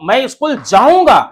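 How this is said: The verb जाऊंगा is said with strong emphasis. The speaker will definitely go. "जब verb पे मैंने जोर देके बोला"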